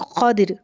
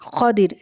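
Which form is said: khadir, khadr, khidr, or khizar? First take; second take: khadir; khadir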